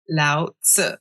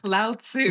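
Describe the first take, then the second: First: The name is said with Chinese sounds. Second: The name is said with English sounds. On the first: "in Chinese, it's" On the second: "In English"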